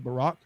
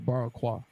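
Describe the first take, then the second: First: The word ends without an added kwa syllable. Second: The word ends with an added kwa syllable. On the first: The speaker already knows the word. "If I'm saying I know the word, so I'm gonna say Barack" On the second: The speaker is reading the word without knowing it. "But if I didn't know, I would say Barakwa"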